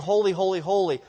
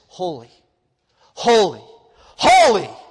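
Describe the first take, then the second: First: Each word is said at the same level. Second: Each word is louder than the one before.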